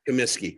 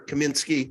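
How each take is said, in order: First: The name is said without an N sound. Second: The name is said with an N sound. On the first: The speaker calls it right. "no N" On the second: The speaker calls it wrong. "Am I saying that right"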